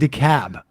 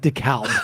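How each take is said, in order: First: The word is said without an L sound. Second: The word is said with an L sound. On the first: The speaker calls it right. "says it's pronounced decab" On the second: The speaker calls it wrong. "not decalb"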